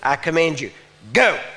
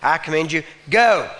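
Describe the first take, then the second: First: It is spoken forcefully, from deep in the body. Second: It is spoken in a plain, conversational voice. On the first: The speaker calls it right. "You want to hit from here" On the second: The speaker calls it wrong. "You don't say"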